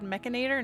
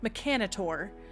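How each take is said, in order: First: The word is pronounced the American-style way. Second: The word is pronounced the Australian-style way. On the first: The speaker usually says it this way. "I've always said mechanator" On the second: Another player says it this way. "they pronounced it mechanator"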